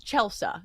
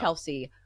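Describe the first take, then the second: First: The name ends in a 'sah' sound. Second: The name ends in a 'see' sound. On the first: This is the name's real pronunciation. The speaker calls it right. "my name is different because it's Chelsea" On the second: This is how people mistakenly say the name. The speaker calls it wrong. "It's not Chelsea"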